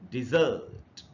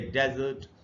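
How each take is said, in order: First: The stress is on the second syllable. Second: The stress is on the first syllable. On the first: It is used as a verb. "Verb के रूप में जब use करेंगे तो पढ़ेंगे dessert" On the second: It is used as a noun. "Noun के रूप में जब इसको यूज करेंगे तो पढ़ेंगे डेजर्ट"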